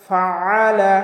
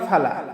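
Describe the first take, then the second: First: A pressed throat consonant is heard mid-word. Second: No throat consonant is heard mid-word. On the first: The speaker calls it right. "হলকের মধ্যখান থেকে একটু চাপ দিয়ে উচ্চারণ করতে হবে" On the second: The speaker calls it wrong. "ফালা বললে আইনের উচ্চারণটা হয় না"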